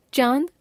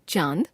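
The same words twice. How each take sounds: First: चांद with the pitch rising; चांद left hanging on a rise; error example, rising. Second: चांद dipping, then lifted at the end; चांद with a scooped tune; corrected form. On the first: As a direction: lift the end of चांद. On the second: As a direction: dip low on चांद and come up. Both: Shown as a demonstration. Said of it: "अनुस्वार और अनुनासिक संबंधी अशुद्धियां".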